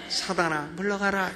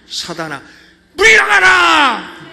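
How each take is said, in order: First: It is said weakly and timidly. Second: It is said forcefully, stressing 물.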